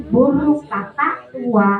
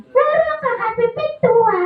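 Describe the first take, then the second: First: Said in the usual way. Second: Sung, high puppet singsong; puppet singing. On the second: Acted. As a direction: sing it back high as the puppet. Puppet sings it back wrong.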